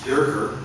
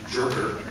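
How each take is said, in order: First: The name begins with a Y sound. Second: The name begins with a J sound. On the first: The speaker calls it right. "I'm glad it's pronounced Yerker" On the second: The speaker calls it wrong. "rather than Jerker"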